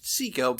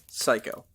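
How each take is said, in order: First: The name is said like 'Seiko'. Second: The name is said like 'psycho'. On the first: This is how the spelling suggests it. "It could have been pronounced Seiko by the way it was spelled" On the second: This is how the family chose to say it. "but they chose to pronounce it Psycho"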